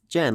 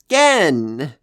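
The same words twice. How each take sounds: First: The name begins with a soft J sound. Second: The name begins with a hard G sound. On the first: The speaker calls it wrong. "like generator" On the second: The speaker calls it right. "it's pronounced Gen"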